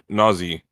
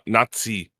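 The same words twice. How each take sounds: First: The middle consonant is a plain z sound. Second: The middle consonant is a ts sound. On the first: The speaker calls it right. "There's no T in the word" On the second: The speaker calls it wrong. "it's not Nazi. Like pizza"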